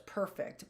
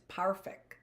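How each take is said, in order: First: Said in the usual way. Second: Put-on a light German accent on perfect, said as pharfect; lightly mimicking his German accent on perfect. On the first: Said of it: "Yes, he says perfect". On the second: Orphan mimics Mr Schatzman's word, in a light German accent. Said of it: "in his German accent".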